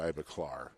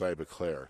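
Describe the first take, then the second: First: The last syllable sounds like 'clar'. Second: The last syllable sounds like 'Claire'. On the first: "If I was from you know, like Texas, it would be Iva Clar" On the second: "I'm from Chicago, so it's Iva Claire"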